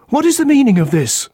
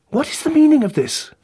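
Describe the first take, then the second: First: High, insistent "What is the meaning of this?" pressing on "is"; husband insisting on an answer; alarmed demand. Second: High, alarmed "What is the meaning of this?" falling off "meaning"; frightened husband asking what happened; alarmed demand. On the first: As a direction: repeat the demand, a touch louder and firmer. Husband repeats demand to inspector. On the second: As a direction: demand an answer in rising panic. Husband demands answer at crime scene. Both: A narrator's reading.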